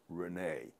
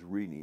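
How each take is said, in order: First: The name is said with a French accented vowel. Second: The name is said plainly, without a French accented vowel. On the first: The name is assumed to carry the accent aigu. The speaker calls it wrong. "not Renee. My parents didn't know the accent aigu" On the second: The name was given without the accent aigu. The speaker calls it right. "his name is Renee"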